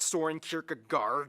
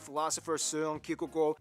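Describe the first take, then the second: First: The name is pronounced with anglicized English sounds. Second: The name is pronounced with native Danish sounds. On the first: The speaker calls it wrong. "It's not Soren Kierkegaard" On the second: The speaker calls it right. "That's actually how you pronounce his name"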